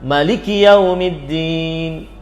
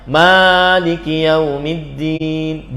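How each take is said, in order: First: The first vowel of Maliki is short. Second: The first vowel of Maliki is long. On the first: It comes from a word meaning ownership. "ahli baca Al-Qur'an membaca Maliki Yaumiddin" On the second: It comes from a word meaning kingship. "Ada yang pakai mimnya panjang"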